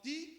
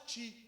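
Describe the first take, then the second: First: The T is said the Pernambucan way. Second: The T is said the local way. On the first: This is how the speaker's home region says it. "Como eu sou pernambucano, que as coisas, o T eu falo ti" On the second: This is how people here say it. "E aqui fala ti"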